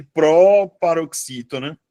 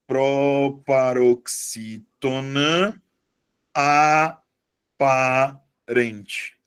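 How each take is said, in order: First: Said in the usual way. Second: Very slow, drawn-out syllables with long gaps; slow dictation. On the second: Shown as a demonstration. Teacher writing the other name for students, slow dictation. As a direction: stretch PROPAROXÍTONA APARENTE out piece by piece.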